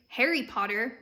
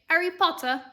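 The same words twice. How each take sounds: First: It is said in an American accent. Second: It is said in a British accent. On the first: "we say" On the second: "they say"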